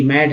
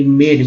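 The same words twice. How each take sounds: First: मैड with open "ae" as in "mad"; short-vowel pronunciation. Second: मेड with long "ay" as in "made"; long-A pronunciation. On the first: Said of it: "यहाँ पर यही उच्चारण हुआ". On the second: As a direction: stretch मेड on a closer "ay". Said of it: "इसका इस रूप में उच्चारण होगा मेड". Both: Shown as a demonstration.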